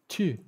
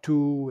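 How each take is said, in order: First: The vowel is a rounded French-style sound. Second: The vowel is a plain English oo sound. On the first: The speaker calls it right. "The sound is not like anything in English" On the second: The speaker calls it wrong. "it's not tu"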